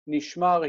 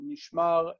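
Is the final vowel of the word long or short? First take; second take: short; long. First: The final vowel is short. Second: The final vowel is long. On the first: He was kept, in the past. "That short vowel is kept in the perfect" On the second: Being kept, as a participle. "the long vowel"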